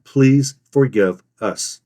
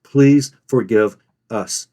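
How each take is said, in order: First: "please... forgive... us" slow with long gaps; slow "please forgive us", broken word by word; too-long pauses. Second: "Please, forgive us" slow with short gaps; measured "Please forgive us", briefly spaced words; slight pause. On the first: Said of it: "Have a slight pause, not as long as that". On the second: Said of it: "A slight pause". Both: Shown as a demonstration.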